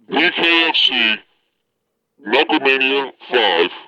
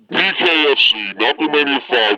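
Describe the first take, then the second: First: It is said at a slower pace. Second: It is said at a faster pace.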